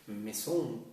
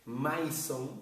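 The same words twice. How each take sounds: First: "maison" as it is said, "meh-zon"; spoken-French "maison", not read by its letters; French pronunciation. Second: "maison" read letter by letter, "ma-i-son"; slow, Spanish-style reading of "maison"; spelling pronunciation. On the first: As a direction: say "maison" with an "eh" in the first syllable. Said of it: "tú luego dices". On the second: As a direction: sound out "maison" as written, with "ai" like "eye". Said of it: "porque se escribe así". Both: Shown as a demonstration.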